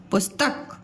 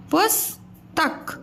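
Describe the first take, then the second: First: Said in the usual way. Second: पुस्तक drawn out slowly, syllable by syllable; slow syllable demo. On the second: Shown as a demonstration. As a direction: stretch out पुस्तक slowly for the class. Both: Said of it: "स के उच्चारण में कम समय".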